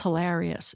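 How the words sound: The A vowel has an East Coast sound. This is how it is said where the speaker grew up. "back home, it's hilarious"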